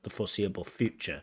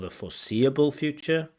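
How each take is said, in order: First: The stress falls on the word future. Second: The stress falls on the word foreseeable. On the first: The speaker calls it right. "Stress should be on future" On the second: The speaker calls it wrong. "Not for the foreseeable future"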